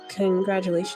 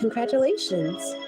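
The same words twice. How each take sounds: First: It is said in a flat, unhappy tone. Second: It is said in a cheerful, happy tone.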